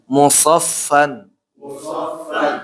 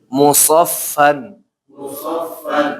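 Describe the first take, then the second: No difference in how they are said.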